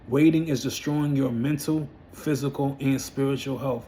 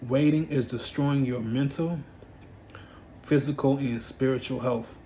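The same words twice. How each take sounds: First: It is said at a normal pace. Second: It is said slowly and deliberately.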